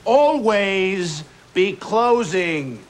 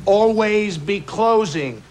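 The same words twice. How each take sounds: First: Always hit hardest, each word slowed down; stress on always, slow. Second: Closing hit hardest, falling at the end; stress on closing. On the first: Sales boss repeating the motto slowly, Always punched. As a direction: spell out Always be closing slowly, leaning on Always. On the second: Sales boss drilling the team, closing punched. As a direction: land on closing like a rule. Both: Shown as a demonstration.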